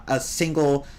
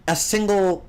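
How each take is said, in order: First: Said in the usual way. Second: Single pushed a bit higher after a restart; single said with a small lift of emphasis; stress on single. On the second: Shown as a demonstration. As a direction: lean into the word single.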